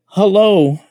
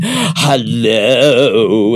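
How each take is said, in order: First: Quoting a greeting. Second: Drawn-out hello in a put-on voice; mocking sing-song hello. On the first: Retold or imitated. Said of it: "He said". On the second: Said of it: "it was the way he was saying it".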